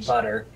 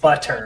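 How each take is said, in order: First: The middle consonant sounds like a D. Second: The middle consonant is a clear T sound. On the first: "I tend to make my T sounds like D sounds" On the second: "instead of saying butter"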